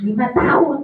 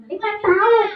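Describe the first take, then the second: First: Said in the usual way. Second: High puppet repeat; puppet character. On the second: Acted. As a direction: parrot the answer back high.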